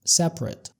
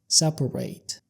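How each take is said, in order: First: It is pronounced the way the adjective is. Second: It is pronounced the way the verb is. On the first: It means apart or distinct. "بننطقها كده separate separate" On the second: It means to split or divide things. "هننطقها بطريقة تانية وهي separate"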